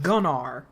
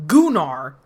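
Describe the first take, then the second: First: Said in the usual way. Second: Gunnar with a long oo, GOO-nar; mimicked mispronunciation of Gunnar, long oo up front; narrator's pronunciation. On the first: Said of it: "instead of Gunnar". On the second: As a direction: hit a loud, stretched GOO in Gunnar. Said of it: "he says Ragnar, but".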